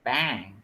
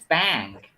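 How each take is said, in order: First: The vowel is bright, with spread, smiling lips. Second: The vowel is bright, with spread, smiling lips.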